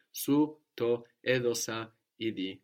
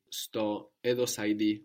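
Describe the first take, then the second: First: Su to edosa idi with Su and to kept apart; uncontracted Su to edosa idi, word by word; full separate form. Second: Sto edosa idi with su to merged into Sto; contracted form. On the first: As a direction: say Su, then to, as two separate words in Su to edosa idi. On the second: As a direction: run su and to together as one syllable, Sto edosa idi. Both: Shown as a demonstration.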